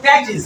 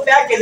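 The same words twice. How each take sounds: First: প্যাকেজ said as PAE-kij; correct pronunciation demo. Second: Said in the usual way. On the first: Shown as a demonstration. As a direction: end প্যাকেজ on a short "-ij". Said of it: "এটা হবে". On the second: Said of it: "এটারে বলো".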